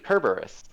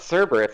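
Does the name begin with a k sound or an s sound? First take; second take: k sound; s sound. First: The name begins with a hard k sound. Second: The name begins with a soft s sound. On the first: The speaker calls it right. "It's actually Kerberos" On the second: The speaker calls it wrong. "that's why like it's not Cerberus"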